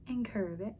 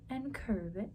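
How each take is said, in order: Both takes have the same delivery.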